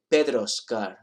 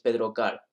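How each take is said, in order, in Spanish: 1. Se dice un sonido s después de Pedro. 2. No se dice ningún sonido s después de Pedro. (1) "pronunciar la S" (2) "No digáis"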